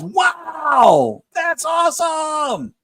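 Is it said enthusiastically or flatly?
enthusiastically. It is said with added enthusiasm.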